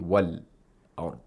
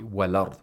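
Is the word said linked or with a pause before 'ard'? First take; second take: paused; linked. First: There is a brief stop before 'ard'. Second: The syllables run together with no break. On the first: The speaker calls it wrong. "We don't say" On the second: The speaker calls it right. "if that's the word that you want to stop at"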